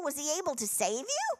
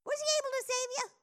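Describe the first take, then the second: First: Said in the usual way. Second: Much higher and faster, like a worried king calling into the den; anxious high call. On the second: Retold or imitated. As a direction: squeak it out, fast and pleading.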